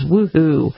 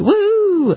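First: It is said flatly, without excitement. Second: It is said excitedly, with exclamation-point energy. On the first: The speaker calls it wrong. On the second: The speaker calls it right.

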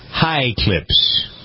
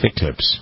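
First: The first syllable sounds like 'high'. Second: The first syllable sounds like 'hick'.

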